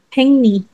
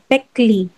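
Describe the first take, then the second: First: The middle is said with ng then n. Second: The middle is said with k then l. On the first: The speaker calls it right. "The pronunciation for that one will be hengni" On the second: The speaker calls it wrong. "Pero hindi siya talaga pekli"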